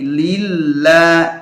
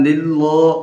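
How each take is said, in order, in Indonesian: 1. Vokal akhirnya tipis dan ringan. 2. Vokal akhirnya berat dan membulat. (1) "tapi lilla" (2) "bukan lillo"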